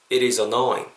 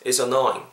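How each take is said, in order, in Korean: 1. 이 문장은 천천히, 신중하게 말했습니다. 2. 이 문장은 자연스러운 대화 속도로 말했습니다. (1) "다 천천히 했으니까" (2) "자연스럽게 해보겠습니다"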